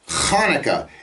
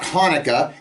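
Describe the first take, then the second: First: It starts with a throaty, rasping ch sound. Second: It starts with a plain, soft h sound. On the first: The speaker calls it right. "it's Hanukkah. It begins with a chet" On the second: The speaker calls it wrong. "it's not Hanukkah"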